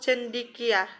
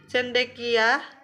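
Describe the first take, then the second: First: The second syllable has an i vowel. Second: The second syllable has an e vowel. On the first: This is the non-standard form. The speaker calls it wrong. "kata non-baku" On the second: This is the standard form. The speaker calls it right. "Kata baku"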